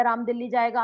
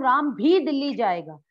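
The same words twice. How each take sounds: First: Said in the usual way. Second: भी said louder and emphasised; भी punched with weight; stress on भी. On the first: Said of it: "simple sentence है". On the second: Shown as a demonstration. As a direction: lean hard on भी. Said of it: "भी लगाते ही उसने उस पर बल दे दिया".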